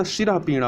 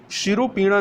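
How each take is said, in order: First: शिरः पीड़ा with visarga after shira; correct form. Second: शिरोपीड़ा with long o after r; wrong form. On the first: Teacher corrects for learners, शिरः पीड़ा with breathed h. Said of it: "शिरः पीड़ा होता है". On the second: Teacher rejects the error, शिरोपीड़ा with "ro". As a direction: say शिरोपीड़ा as "shiro-pida". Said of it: "शिरोपीड़ा नहीं होता". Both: Shown as a demonstration.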